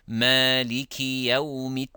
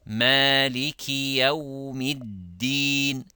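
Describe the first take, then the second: First: The last syllable begins with a t sound. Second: The last syllable begins with a d sound. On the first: It sounds like a word meaning figs. The speaker calls it wrong. "They say maliki yawmittin. Tin means figs" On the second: It keeps the intended word. The speaker calls it right. "din has a different meaning"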